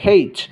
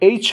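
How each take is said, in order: First: It starts with a clear h sound. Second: It starts with a vowel, no h sound. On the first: "Australian যারা আছে ওরা এটাকে হেইচও বলে" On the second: "American আর British অ্যাকসেন্টে এইচ বলা হয়"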